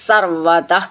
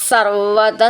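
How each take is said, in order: First: The word ends with a separate breathy visarga. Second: The word links into the next with an s. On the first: "അവിടെയും വിസർഗം" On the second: "ചേർത്ത് ചൊല്ലുമ്പം"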